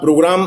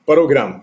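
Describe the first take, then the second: First: The p and r form one cluster. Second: A vowel splits the p and r. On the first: The speaker calls it right. "उसका ठीक उच्चारण करेंगे तो पांच हरफी हो गया" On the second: The speaker calls it wrong. "वो लोग बोलते हैं पिरोग्राम, परोग्राम"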